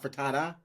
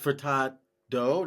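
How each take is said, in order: First: The name ends with an 'ah' vowel. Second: The name ends with an 'oh' vowel. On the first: The speaker calls it wrong. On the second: The speaker calls it right. "It's [name]"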